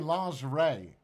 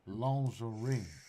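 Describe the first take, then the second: First: It is said with an American accent. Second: It is said with a French accent.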